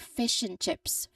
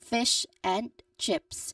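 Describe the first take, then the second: First: 'And' shrinks to an n sound, linked smoothly. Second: Each word is said fully and separately. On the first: "the word and changes very much and becomes just N" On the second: "you clearly hear all three separate words"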